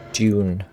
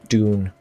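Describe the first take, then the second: First: "Dune" said as tune, with a t sound; mispronounced Dune. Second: "Dune" said with a clear d, dune; corrected Dune. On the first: Streamer stumbling on "Dune" with a t before fixing it. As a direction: start "Dune" with a soft t, like tune. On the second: Streamer correcting "Dune" with a clear d after a slip. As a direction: say "Dune" with a firm d, rhyming with moon. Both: Shown as a demonstration.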